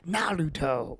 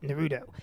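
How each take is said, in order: First: The name is carefully enunciated with Japanese-style sounds. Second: The name is said casually with English-style sounds. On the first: "nobody over enunciated, nobody did the Japanese pronunciation" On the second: "Every single person walking just called it Naruto"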